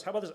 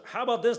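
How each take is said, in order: First: Said in the usual way. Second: Higher, louder, exasperated; frustrated outburst. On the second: Retold or imitated. Meme guy losing it over rejected passwords, frustrated outburst. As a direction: snap it out as patience runs out. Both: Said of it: "He's so frustrated".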